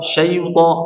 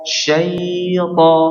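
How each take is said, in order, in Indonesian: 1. Vokal pertama dibaca cepat dan dipotong pendek. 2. Vokal pertama ditahan dua harakat. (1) "jangan terburu-buru, jangan syaita syaita syaita" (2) "nah gitu ... syaita diberikan dua harokat dulu"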